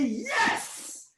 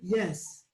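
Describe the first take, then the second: First: The word is said loudly, with lots of energy. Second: The word is said flatly, with little energy. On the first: The speaker calls it right. "the best voice you can ever respond" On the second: The speaker calls it wrong. "you don't say yes"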